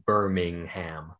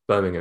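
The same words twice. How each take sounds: First: Each syllable is said clearly and separately. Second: The syllables are reduced and run together. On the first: This is how the American city's name is said. The speaker calls it wrong. "Distinguish between the syllables a bit more, don't they?" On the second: This is how the English city's name is said. The speaker calls it right. "Birmingham, it's not Birmingham"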